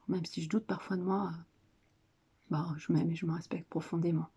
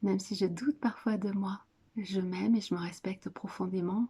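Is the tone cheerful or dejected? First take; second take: dejected; cheerful. First: It is said glumly, without enthusiasm. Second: It is said cheerfully, with a smile.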